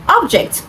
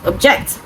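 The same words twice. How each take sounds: First: "object" with a high first syllable, falling; stress on first syllable. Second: "object" with the stress on the second syllable. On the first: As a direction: say "object" as the noun, OB-ject. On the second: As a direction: say "object" as the verb, ob-JECT. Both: Shown as a demonstration. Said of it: "from the first syllable to the second".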